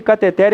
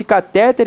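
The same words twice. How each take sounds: First: Cateter stressed on its last syllable; stress on TER. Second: Catéter stressed on the middle TÉ. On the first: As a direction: move the stress of cateter to the end. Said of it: "a pronúncia correta é uma oxítona". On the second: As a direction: punch the middle syllable of catéter. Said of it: "catéter não existe". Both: Shown as a demonstration.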